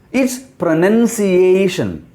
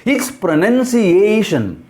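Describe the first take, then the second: No difference in how they are said.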